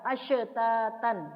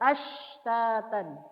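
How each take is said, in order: First: The sh sound bounces with a release. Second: The sh sound flows on smoothly with breath. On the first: The speaker calls it wrong. "nggak boleh" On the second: The speaker calls it right. "Harus ashtatan karena dia mengalir dari segi nafas dan suara"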